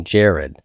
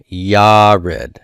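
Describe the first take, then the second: First: Said in the usual way. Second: "Yared" with a Y sound and long ah, YAH-red; Hebrew pronunciation. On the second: Shown as a demonstration. Teacher introducing the last Hebrew name, clearly pronounced YAH-red. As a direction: say "Yared" louder, YAH-red, first syllable stretched. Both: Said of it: "This is the name Jared".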